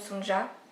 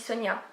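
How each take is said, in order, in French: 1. La consonne du milieu est un son 'j' français. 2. La consonne du milieu est un son 'y'. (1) "peut-être que ça se dit quand même Sonja" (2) "je le prononce un petit peu à l'islandaise, hein, avec les, les J qui sont des, des, des yeux"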